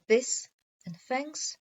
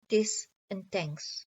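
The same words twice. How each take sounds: First: The th sounds are said like f and v. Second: The th sounds are said like d and t. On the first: "th fronting" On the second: "th stopping"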